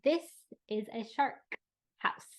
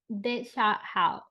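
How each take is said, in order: First: It is slower with every consonant clearly said. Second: It is fast with weak, dropped consonants. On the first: "with the correct emphasis where it needed to be, with the sounds that were missing, a little slowly" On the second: "Very, very um, not emphasized consonants and maybe very fast"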